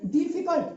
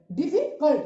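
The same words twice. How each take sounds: First: Said in the usual way. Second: difficult split as डिफि, pause, cult; syllable break. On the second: Shown as a demonstration. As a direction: say difficult in two separate beats, breaking before cult. (Difficult को तोड़कर, डिफि और cult) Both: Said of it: "दो syllables हो रहे हैं ना".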